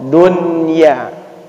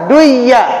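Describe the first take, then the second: First: The n sound is pronounced clearly before y. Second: The n sound is merged into the y. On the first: The speaker calls it right. "wajib dibaca izhar jelas" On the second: The speaker calls it wrong. "seharusnya dibaca duya"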